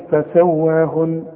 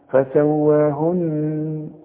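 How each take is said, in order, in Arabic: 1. النون الأخيرة تُقصر ولا تُغنّ. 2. النون الأخيرة تُغنّ بالغنة وتُمدّ بها. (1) "فما تقولش" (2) "لازم اغنها بمقدار حركتين"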